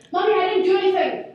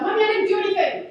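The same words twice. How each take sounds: First: Put-on higher, louder little-kid blurt; high, loud, hurried denial to mom; child protesting innocence. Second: High, loud imitation of a small child; pre-emptive kid denial, pitched up; child protesting innocence. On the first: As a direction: imitate a small daughter rushing to deny it. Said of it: "comes running to me, running straight up". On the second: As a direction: blurt it out like a guilty toddler. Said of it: "we haven't even talked about".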